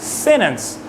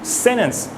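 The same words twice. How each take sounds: First: The T is stopped in the throat. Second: The same.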